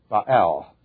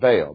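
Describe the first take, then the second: First: The word is said with its original Hebrew sounds. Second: The word is said with an English pronunciation. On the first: The speaker calls it right. "If you are a purist and you want to pronounce everything correctly, then the word is Baal" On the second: The speaker calls it wrong. "rather than Baal"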